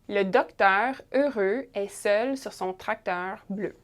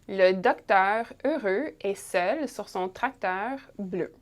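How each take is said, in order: Both takes have the same delivery.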